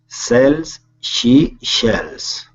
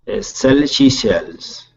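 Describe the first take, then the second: First: It is said slowly. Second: It is said very fast.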